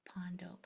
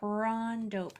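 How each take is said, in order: First: No R sound follows the first P. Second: An R sound follows the first P. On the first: The speaker calls it wrong. "it's easier to just say pawn" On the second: The speaker calls it right. "Force that R in that right spot"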